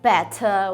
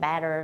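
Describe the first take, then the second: First: The t is crisp, in a British accent. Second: The t is flapped, in an American accent. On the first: This is how it was taught in North Korea. "In North Korea, they taught us like better" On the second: This is how it is said now. "But right now, I'm more like water and better"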